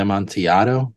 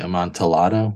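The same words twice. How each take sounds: First: The double L is said the Spanish way. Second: The double L is said as English L sounds. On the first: "I always want to say Amontillado because it's Spanish" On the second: "it's supposed to be Amontillado with L's"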